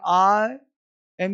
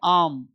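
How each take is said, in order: First: It is said as two full separate words. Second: It is reduced to one short syllable. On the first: "फिर बोलेंगे आई एम" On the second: "इसको पढ़ेंगे आम"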